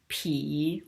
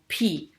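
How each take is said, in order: First: The syllable is said with a low dipping pitch. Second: The syllable is said with a sharply falling pitch.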